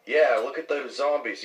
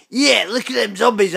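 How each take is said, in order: First: Said in the usual way. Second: Higher, louder echo of a friend; mocking imitation. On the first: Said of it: "And I'd be like". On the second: Mimicking the friend's zombie show line, loud mocking voice. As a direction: throw the line back, pitched up and loud. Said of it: "why are you going".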